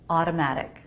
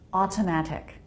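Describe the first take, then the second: First: Both T sounds are soft, quick flaps. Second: Both T sounds are crisp, fully released stops. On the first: The speaker calls it right. "Both teas are flap teas" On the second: The speaker calls it wrong. "I'll do it with two true teas"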